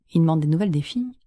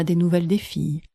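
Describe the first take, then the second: First: "filles" lifted in a questioning rise; incredulous question. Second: Said in the usual way. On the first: Acted. Parents puzzled that Félix asks after his sisters, incredulous question. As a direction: echo it in disbelief, rising on "filles". Astonished echo of the request.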